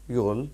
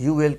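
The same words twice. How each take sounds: First: "you'll" merged into one syllable; contracted pronunciation. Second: Said in the usual way. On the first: Shown as a demonstration. Teacher showing how you will is spoken, contracted pronunciation. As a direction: say "you'll" as a single word, you and will run together. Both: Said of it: "you will کو بولیں گے".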